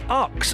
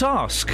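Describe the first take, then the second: First: The word is said as 'aks', ending in ks. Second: The word is said as 'ask', ending in sk. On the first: "why do some people say ux" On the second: "and not ask"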